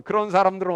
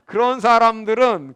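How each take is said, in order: First: Said in the usual way. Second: 그런 사람들은, slow, loud, each word punched; emphatic repeat. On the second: Shown as a demonstration. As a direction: lean hard into 그런 사람들은. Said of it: "그런 사람들은 어떻게 되느냐?". (그런 사람들은을 천천히 크게 힘주어)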